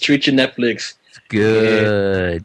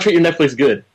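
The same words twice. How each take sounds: First: The word good is stretched out long. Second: The word good is said short and plain. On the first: The speaker calls it right. "like three extra O's" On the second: The speaker calls it wrong. "you said that wrong"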